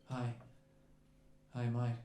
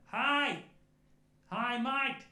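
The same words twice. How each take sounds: First: Low, understated Australian greeting; real casual Australian. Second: High, loud Australian call-out; cool wee Australian voice. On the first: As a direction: greet them as if nothing is wrong, Australian accent. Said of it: "real casual, just looking at us". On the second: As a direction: call cheerily from another room, Australian accent. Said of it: "shouting out to us with his cool wee voice". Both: Retold or imitated.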